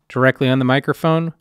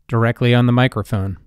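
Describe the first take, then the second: First: The voice has reduced low-frequency bass. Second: The voice has its full low-frequency bass. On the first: "directly on the microphone with a low cut"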